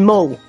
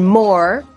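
First: The final r is dropped. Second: The final r is pronounced.

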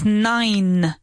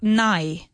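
First: The final n sound is clearly pronounced. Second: The final n sound is dropped. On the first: The speaker calls it right. "It's nine. So that second N needs to be pronounced very clearly" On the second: The speaker calls it wrong. "It's not nigh. Nigh doesn't exist in English"

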